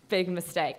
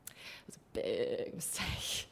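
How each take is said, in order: First: Said in the usual way. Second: "big mistake" whispered, much softer and lower; whispered aside. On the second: Shown as a demonstration. Storyteller confides her error to the audience in a whisper. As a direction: breathe "It was a big mistake" as a rueful whisper.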